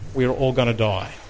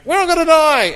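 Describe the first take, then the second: First: The line is said calmly and quietly. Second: The line is screamed loudly in panic. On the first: The speaker calls it wrong. "They probably wouldn't have presented it that calming" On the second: The speaker calls it right. "I probably should have screamed it at you like that"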